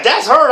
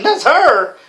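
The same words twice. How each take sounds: First: Said in the usual way. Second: Higher, mildly startled echo; retold disbelief. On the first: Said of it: "he's like". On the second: Friend retelling his reaction to the pictures, mock disbelief. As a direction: repeat it in mock disbelief, pitched up.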